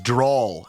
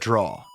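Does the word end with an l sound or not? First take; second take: with l; without l. First: The word ends with an added l sound. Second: The word ends on the open vowel, no l. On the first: It is the regional way of saying it. "another one that I've noticed I do" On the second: It is the usual way of saying it. "instead of draw"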